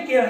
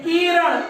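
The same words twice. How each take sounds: First: The first vowel is kept short. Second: The first vowel is drawn out long. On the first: The speaker calls it right. "तो इसको हम पढ़ेंगे किरण।" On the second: The speaker calls it wrong. "तो किरण में बड़ी ई की मात्रा हो जाएगी, थोड़ा थोड़ा सा उच्चारण जो है वो दीर्घ हो जाएगा।"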